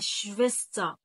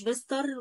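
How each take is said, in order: First: The word ends in a vowel, r silent. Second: The word ends with an audible r sound. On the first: The speaker calls it right. "لا تنطق، تنطق صوت الاي بس" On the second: The speaker calls it wrong. "ما اقولش شفيستر ولا شفيستغ. الكلام ده طبعا ممنوع"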